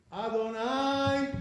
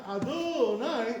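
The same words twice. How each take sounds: First: "Adonai" as A-do-NAI, short middle and long held ending; "Adonai" slow and even, first syllable marked, last held; proper Adonai. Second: "Adonai" stretched on the middle, a-DOO-nai; "Adonai" with misplaced weight on DO; wrong-syllable Adonai. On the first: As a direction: keep "do" light in "Adonai" and sustain the NAI high. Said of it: "That's the proper way to say it". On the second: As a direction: raise and lengthen the DO of "Adonai". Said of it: "not Adonai". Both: Shown as a demonstration.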